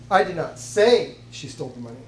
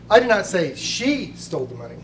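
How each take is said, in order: First: The word 'say' carries the main stress. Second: The word 'she' carries the main stress. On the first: It may be true but is not being claimed. "It's possible she did, but I'm not saying it" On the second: Someone else took it. "You're saying that it was stolen by someone else"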